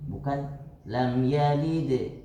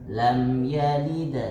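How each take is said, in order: First: The echo after the d sounds close to i. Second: The echo after the d sounds close to a. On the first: The speaker calls it wrong. "kalau di di yang lebih dekat kasrah" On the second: The speaker calls it right. "lebih condong kepada pendapat yang dekat dengan harokat fathah"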